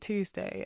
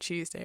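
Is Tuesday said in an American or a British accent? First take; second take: American; British. First: It is said in an American accent. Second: It is said in a British accent. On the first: "Americans will say Tuesday" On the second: "I've been talking about Tuesday"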